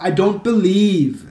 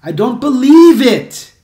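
First: "I don't believe" slow, stopping on "believe"; incomplete example. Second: "believe it" high, loud and drawn out; corrected example. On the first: Teacher shows what not to say, slow and loud. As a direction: stretch "believe" and end there, loud. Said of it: "Você não pode falar". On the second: Teacher gives the correct phrase, high loud "believe it". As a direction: punch "believe" high, linking "it". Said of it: "Não pode". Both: Shown as a demonstration.

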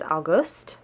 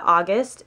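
First: August said the German way, stressed late; German month name. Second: Said in the usual way. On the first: Shown as a demonstration. Learner showing viewers the months, German pronunciation. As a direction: say August as "ow-GOOST", rising at the end. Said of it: "to do the months".

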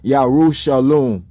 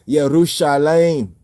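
First: "Yarushalom" opening YAH, ending in "lom"; "Yarushalom" closing like shalom; wrong form Yarushalom. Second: "Yerushalayim" opening YEH, ending in "layim"; "Yerushalayim" closing on a bright-vowelled "layim"; corrected form Yerushalayim. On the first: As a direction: say "Yarushalom" with a rounded last syllable. Rejects this pronunciation. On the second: Gives the corrected pronunciation. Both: Shown as a demonstration.

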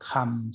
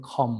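First: "คำ" with a short open "a" vowel, like English "come"; general Western pronunciation. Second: "คอม" with a rounded "aw" vowel, for English "come"; British singer's pronunciation. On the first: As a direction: say "คำ" as kham, with an "ah" vowel. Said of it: "ฝรั่งทั่วๆไปก็จะออกเสียงว่า". (ออกเสียง "คำ" ด้วยสระอำแบบฝรั่งทั่วไป) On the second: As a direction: say "คอม" as khom, lips rounded. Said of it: "แต่คนเนี้ยมันจะออกเป็นคอม". (ออกเสียง "คอม" แบบอมๆ ห่อปาก) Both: Shown as a demonstration.

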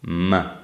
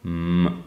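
First: M hummed with upper teeth on lower lip; labiodental m. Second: M hummed with both lips pressed together; bilabial m. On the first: Phonetics teacher demonstrating to students, labiodental M on teeth and lip. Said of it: "upper teeth on the lower lip". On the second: Phonetics teacher demonstrating to students, bilabial M with lips together. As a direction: say M with the two lips closed. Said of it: "put the two lips together". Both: Shown as a demonstration.

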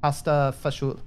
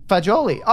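First: "Pasta fagioli" as pasta fah-ZHOOL; Italian-American pronunciation. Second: "Fagioli" as fa-JO-lee; "Fagioli" with a j sound and long o; corrected Italian pronunciation. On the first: Retold or imitated. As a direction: end "fagioli" on the l, with an oo. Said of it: "is that correct in terms of the pronunciation?". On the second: Shown as a demonstration. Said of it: "So she did pronounce it wrong".

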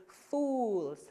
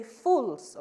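First: Fools with a long drawn oo; prolonged fools. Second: Fools with a short clipped oo. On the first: Teacher correcting students with a long fools. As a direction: stretch the oo in fools. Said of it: "a little prolonged". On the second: Teacher showing students the wrong short fools. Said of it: "Do not say fools". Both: Shown as a demonstration.

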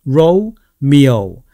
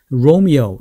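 First: "Romeo" in two slow parts, rou... miou; split Romeo. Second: "Romeo" joined up, both Os gliding to u; whole-word Romeo. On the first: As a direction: separate "Romeo", gliding both Os into u. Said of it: "뒤에도 O가 됩니다". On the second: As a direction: say "Romeo" smoothly as one word. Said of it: "이렇게 되죠". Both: Shown as a demonstration.

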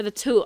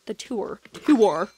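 First: Tour said as one syllable, "too"; "tour" coming out as "too"; odd "tour". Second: Tour sounded out as "TOO-er"; testing "tour" as "TOO-er"; corrected "tour". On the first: Real, not acted. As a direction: drop the R from tour. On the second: Shown as a demonstration. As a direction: give tour two syllables, ending on R. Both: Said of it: "why I said it like that".

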